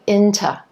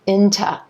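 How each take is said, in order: The two takes are said the same way.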